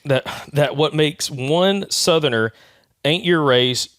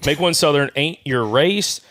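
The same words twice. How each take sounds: First: Reads "Southerner" where the text has Southern; misread word. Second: Said in the usual way. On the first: Real, not acted. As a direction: says "Southerner" with the extra -er, by mistake. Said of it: "It doesn't say Southerner". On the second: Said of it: "oh, Southern. Sorry".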